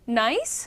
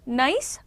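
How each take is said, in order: No difference in how they are said.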